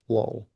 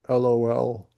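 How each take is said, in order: First: The letters are spoken as one word. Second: Each letter is spoken separately. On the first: "It's an acronym when you pronounce them as a word" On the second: "it's in initialism when you say each individual letter"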